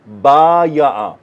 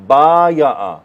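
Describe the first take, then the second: No difference in how they are said.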